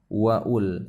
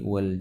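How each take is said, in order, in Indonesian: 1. Ada vokal tambahan yang dibunyikan sebelum l. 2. Wa langsung menyambung ke l, tanpa vokal tambahan. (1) "bukan waul" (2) "tapi wal jibala"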